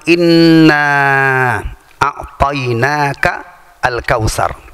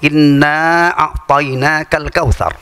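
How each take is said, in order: First: The words are kept apart, not joined. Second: The words are joined together without a break.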